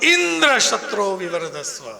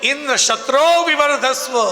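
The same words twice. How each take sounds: First: The word Indra is stressed instead of shatro. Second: The word shatro is lengthened and stressed. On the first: The son should have Indra as his killer. The speaker calls it wrong. "શત્રો શબ્દને લંબાવવાની જગ્યાએ ઇન્દ્ર ઉપર ભાર મૂક્યો" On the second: The son should be the killer of Indra. The speaker calls it right. "મંત્ર તો એ જ હતો"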